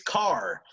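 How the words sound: The final R is pronounced, American style. "for an American, it is car"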